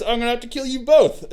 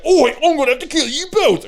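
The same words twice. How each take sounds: First: Said in the usual way. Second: Higher, put-on gleeful ork menace. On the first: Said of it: "Snickrot says". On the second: Shown as a demonstration. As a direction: ham up the killer ork. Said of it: "it sounded more like".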